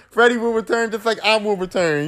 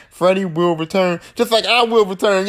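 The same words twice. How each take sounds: First: "Freddy will return" said higher, as a teaser; a hint of a movie tagline; segue line repeated. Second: Said in the usual way. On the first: Shown as a demonstration. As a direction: announce "just like I will return" like a trailer. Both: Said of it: "Y'all see how I did that in that segue?".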